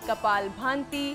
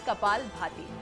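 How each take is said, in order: First: The second word has an added nasal sound. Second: The second word has no r or nasal. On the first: The speaker calls it wrong. "कई लोग कहते हैं कपाल भांति" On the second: The speaker calls it right. "नहीं, इसका नाम है कपाल भाती"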